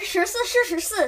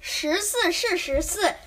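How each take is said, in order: First: It is said very fast. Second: It is said at a normal speed.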